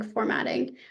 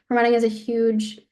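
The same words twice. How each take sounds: First: Hoarse, voice giving out; losing the voice, whispering it; raspy whisper. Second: Said in the usual way. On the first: Real, not acted. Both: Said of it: "I'm losing my voice".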